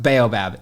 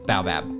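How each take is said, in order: First: It is said with an English pronunciation. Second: It is said with an American pronunciation.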